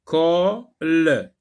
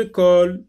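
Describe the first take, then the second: First: "Colle" cut in two, the final l sounded separately; split into syllables. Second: Said in the usual way. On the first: Shown as a demonstration. Teacher sectioning the word for learners, "Colle" in two beats. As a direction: pause inside "Colle" before a separate "le". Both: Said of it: "on va sectionner le mot".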